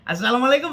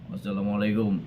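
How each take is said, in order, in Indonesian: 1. Sapaan ini terdengar hangat dan ceria. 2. Sapaan ini terdengar murung dan cemberut. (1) "itu bahagia" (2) "innalillahi wa inna ilaihi rajiun dosen ini"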